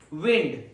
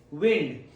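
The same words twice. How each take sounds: First: The vowel is short, as in pinned. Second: The vowel is short, as in pinned.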